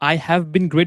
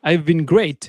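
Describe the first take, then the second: First: Have is said fully as its own word. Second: Have is shortened and joined onto I. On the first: "I have been great ও বলতে পারি" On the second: "অনেক ছোট হয়ে যাচ্ছে কথাটা"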